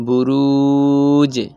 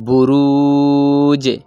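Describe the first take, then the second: The two takes are said the same way.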